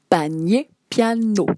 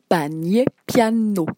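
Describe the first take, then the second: No difference in how they are said.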